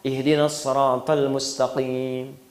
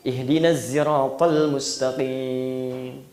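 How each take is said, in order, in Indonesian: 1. Bunyi s di sirat itu tebal dan berat. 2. Bunyi s di sirat itu bercampur ke arah z. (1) "Pakai shad" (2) "shad pakai zai"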